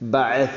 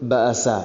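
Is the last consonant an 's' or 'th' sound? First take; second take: th; s. First: The last consonant is a th sound. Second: The last consonant is an s sound. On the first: The speaker calls it right. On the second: The speaker calls it wrong.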